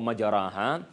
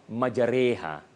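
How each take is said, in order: First: The vowel after the r is a plain open a. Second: The vowel after the r leans toward an e. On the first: The speaker calls it wrong. "jangan kita baca" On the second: The speaker calls it right. "ini disebut ya sebagai imalah ... yang betulnya adalah majariha"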